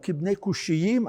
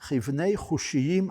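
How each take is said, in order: First: The second word starts with a hard k sound. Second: The second word starts with a raspy kh sound. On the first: This is the everyday modern reading. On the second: This is the traditional scriptural reading.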